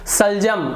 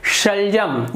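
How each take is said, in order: First: The word begins with an s sound. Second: The word begins with an sh sound. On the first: The speaker calls it wrong. "दांत जीभ को नीचे रखूंगा तो सलजम, तो ये गलत हो जा रहा है" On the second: The speaker calls it right. "ये सही उच्चारण है"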